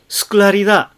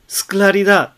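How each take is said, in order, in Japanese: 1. suのuは消えます。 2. suのuは消えます。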